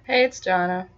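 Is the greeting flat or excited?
flat. The greeting is said flatly, without excitement.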